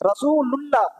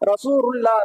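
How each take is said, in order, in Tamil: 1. 'ullah'-க்கு முன்னாடி L ஒலி வரும். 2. 'ullah'-க்கு முன்னாடி R ஒலி வரும். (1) "அந்த லாமு வந்து உச்சரிக்கப்பட வேண்டும்" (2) "ராவை வந்து என்ன செய்வாங்கன்னா ரசூருல்லா ரசூருல்லான்னு சொல்லுவாங்க"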